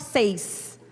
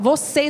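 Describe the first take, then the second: First: The word is clipped to one syllable. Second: The word is said in full, three syllables. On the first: "você fala seis" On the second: "Em vez de falar vocês"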